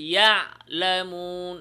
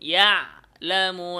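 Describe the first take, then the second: First: The ain sound is cut off abruptly. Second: The ain sound is cut off abruptly.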